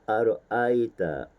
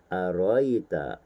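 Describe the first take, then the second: First: A glottal catch splits the middle vowels. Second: The middle vowels run together without a catch. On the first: This is the common Hafs reading. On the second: This is the Al-Kisai reading.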